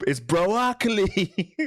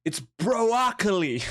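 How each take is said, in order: First: High, very slow drawn-out broccoli, louder; Chris D'Elia bit. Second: High, slow goofy reveal of broccoli; Chris D'Elia bit. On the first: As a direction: stretch every syllable of broccoli. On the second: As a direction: draw out broccoli like a punchline. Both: Acted. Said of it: "I've been watching too much Chris D'Elia".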